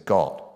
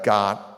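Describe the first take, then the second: First: The vowel has a North Carolina, English-like rounded sound. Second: The vowel is a general American open 'ah'. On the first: "if you're a certain kind of Durham, North Carolina, you say got and not" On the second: "So Americans say"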